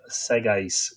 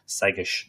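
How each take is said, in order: First: The name is read as an English word. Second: The name is said like 'seggish'. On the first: The speaker calls it wrong. "you read that and you say Segais, you know, that you might think it's English" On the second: The speaker calls it right. "Segais is how it's pronounced. Just think of something like S-E-G-G-I-S-H"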